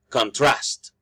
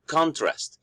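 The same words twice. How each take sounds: First: Con-TRAST, second syllable carries the weight; verb stress. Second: CON-trast, high first syllable then a fall; noun stress. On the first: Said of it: "the stress is producing a verb meaning". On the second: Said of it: "producing the meaning of a noun". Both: Shown as a demonstration.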